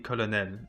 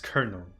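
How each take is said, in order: First: It is pronounced the French way. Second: It is pronounced the English way. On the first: "the French pronunciation, which is simply colonel" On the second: "English becomes colonel"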